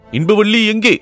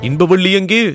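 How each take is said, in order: First: Higher call with a falling end; insistent high question, falling at the end; repeated searching call. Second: High call with a rising end; high, questioning call, rising at the end; searching question. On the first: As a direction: call out high, then let it drop. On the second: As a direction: ask anxiously where she is. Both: Acted. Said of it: "என்று கேட்டார்".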